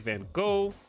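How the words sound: It starts with a v and ends with a g. "Americans, like me, typically say Van Gogh"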